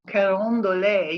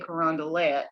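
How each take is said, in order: First: It is said with a French-style pronunciation. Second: It is said with the local New Orleans pronunciation. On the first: The speaker calls it right. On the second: The speaker calls it wrong.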